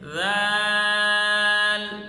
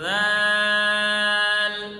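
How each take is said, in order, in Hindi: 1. स्वर लंबा है और व्यंजन नरम हैं। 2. स्वर लंबा है और व्यंजन नरम हैं।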